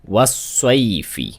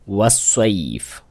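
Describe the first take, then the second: First: The word ends with a short vowel. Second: The word ends with a bare consonant. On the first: The reading continues without stopping. "फा जेर फी" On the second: The reader stops on this word. "अगर फा पर रुका जा रहा है, ये जो जेर है जज्म बन जाएगा"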